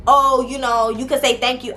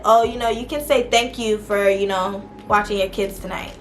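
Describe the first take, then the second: First: Snippy, sarcastic thank-you; mock-snotty jab at the sister; with attitude. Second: Said in the usual way. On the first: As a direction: throw it at her with a bit of sass. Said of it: "I didn't say it with no attitude". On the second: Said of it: "I didn't say it like that. I said".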